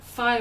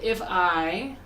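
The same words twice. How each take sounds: First: The 'I' is dropped into the 'if'. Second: Both words are pronounced clearly and separately. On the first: "we don't even pronounce that I" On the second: "we don't say if I"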